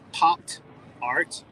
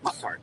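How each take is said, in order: First: It is said slowly, as two separate words. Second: It is said quickly, run together as one.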